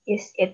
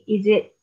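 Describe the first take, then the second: First: The words are separate, with a clear s sound. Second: The words run together, with a z sound. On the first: This is how it is written. "Is it biasa" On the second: This is how it is actually spoken. "Suara S-nya berubah jadi suara Z. Dan suara Z itu jadi ke drag"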